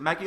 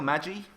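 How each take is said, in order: First: "Maggie" with a hard G, as in "go". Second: "Maggie" with a soft G, like "Madgie". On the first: Streamer checks a viewer's name, "Maggie" with hard G. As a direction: say "Maggie" with the G of "get". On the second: Streamer checks a viewer's name, "Maggie" with soft G. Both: Shown as a demonstration. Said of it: "Is it Maggie or Maggie?".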